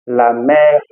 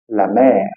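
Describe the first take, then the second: First: Mère said wrong; mère with the wrong vowel, to show the error; wrong French e. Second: Mère said the right way; mère said correctly, with an open e; correct French e. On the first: Teacher shows the wrong way to say mère. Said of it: "Eu não vou falar la mère". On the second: Teacher shows students the right mère. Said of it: "eu vou falar". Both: Shown as a demonstration.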